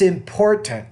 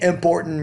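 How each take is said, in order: First: The P is said with a strong puff of air. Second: The P is said with little puff of air. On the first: The speaker calls it right. "pronounce your P sounds with a lot more aspiration or more air" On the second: The speaker calls it wrong. "you're kind of saying important role"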